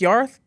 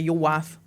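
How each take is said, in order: First: The name is pronounced in its Welsh way, Yorith. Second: The name is pronounced following its English spelling. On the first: It is the name's true pronunciation. The speaker calls it right. "no, it's Yorith" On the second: It is the easier, anglicised way to say it. The speaker calls it wrong. "we'd just say your wife because that's how it's spelt"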